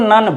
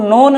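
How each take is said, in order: First: The vowel is a short 'uh' sound. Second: The vowel is a long 'oh' sound. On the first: The speaker calls it right. "इसको नन बोलते हैं" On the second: The speaker calls it wrong. "इसको नोन नहीं बोलते हैं"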